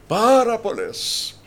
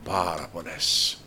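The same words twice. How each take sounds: First: High, loud and slow Πάρα πολλές; booming, drawn-out repeat; emphatic shout. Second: Said in the usual way. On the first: Shown as a demonstration.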